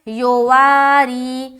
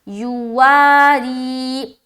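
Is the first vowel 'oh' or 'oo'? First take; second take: oh; oo. First: The first vowel sounds like 'oh'. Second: The first vowel sounds like 'oo'. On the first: The speaker calls it wrong. "बाज औकात लोग पढ़ते हैं योवारी" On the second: The speaker calls it right. "यो नहीं पढ़ना, यू"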